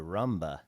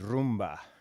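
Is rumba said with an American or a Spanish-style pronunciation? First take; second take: American; Spanish. First: It is pronounced with an American accent. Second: It is pronounced with a Spanish-style accent. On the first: The speaker calls it wrong. "Americans say rumba" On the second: The speaker calls it right. "it's technically rumba"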